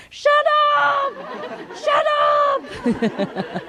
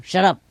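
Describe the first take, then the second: First: Very high, drawn-out shut up; long mock yell. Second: Short, quick shut up at usual pitch. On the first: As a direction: screech shut up, stretching the last vowel. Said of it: "if it take too long and too noisy". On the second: Retold or imitated. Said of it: "sometimes short".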